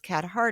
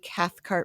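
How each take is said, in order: First: The middle is said as th without k. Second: The middle is said as th followed by k. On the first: The speaker calls it wrong. "people think it's Cathart" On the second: The speaker calls it right. "I'm enunciating that"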